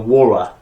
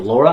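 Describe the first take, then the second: First: The name begins with a W sound. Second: The name begins with a clear L sound. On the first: The speaker calls it wrong. "I had problems with my L's and W's. ... I would go, Wara" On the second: The speaker calls it right. "my sister Laura"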